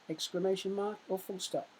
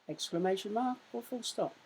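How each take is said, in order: Both takes have the same delivery.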